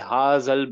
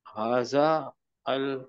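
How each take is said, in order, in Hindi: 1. दोनों शब्द आपस में जुड़कर एक हो जाते हैं। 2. दोनों शब्द अलग-अलग बोले जाते हैं, जुड़े हुए नहीं।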